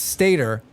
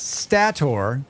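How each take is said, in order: First: The last syllable is said like 'er'. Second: The last syllable is said like 'or'. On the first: The speaker calls it wrong. "Everyone else thought it was Stator" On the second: The speaker calls it right. "because it's O R"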